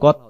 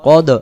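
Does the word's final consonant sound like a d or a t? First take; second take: t; d. First: The final consonant is clipped and sounds like t. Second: The final d is released with an echoing bounce. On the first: The speaker calls it wrong. "যদি আমি বলি কত, তাহলে এখানে কি তা হতে পারে" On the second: The speaker calls it right. "কদ কলকলা হচ্ছে কদ"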